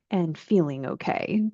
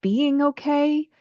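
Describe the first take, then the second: First: "feeling okay" with the weight on "feeling"; stress on feeling. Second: "being" lifted high and drawn out slowly; "being okay" with the peak on "being"; stress on being. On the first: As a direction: set "feeling" against "being" with a gentle lean. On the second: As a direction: lean hard on "being", not on "okay". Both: Shown as a demonstration. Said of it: "the difference between".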